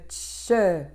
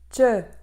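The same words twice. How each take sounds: First: The fricative consonant is given more force. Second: The plosive consonant is held with more force. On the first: The speaker calls it wrong. "au lieu de tche" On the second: The speaker calls it right. "je vais faire tche"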